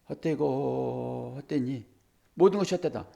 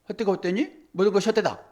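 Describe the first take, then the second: First: It is said slowly. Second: It is said very fast.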